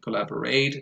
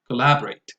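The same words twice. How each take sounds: First: The stress falls on a syllable other than the second. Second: The stress falls on the second syllable. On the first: The speaker calls it wrong. "I hear some learners say" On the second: The speaker calls it right. "second syllable"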